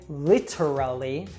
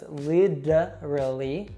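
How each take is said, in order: First: The middle T is a clear, crisp T. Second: The middle T is a soft flap sound. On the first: The speaker calls it wrong. "we usually don't say literally" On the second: The speaker calls it right. "with that American T we saw earlier"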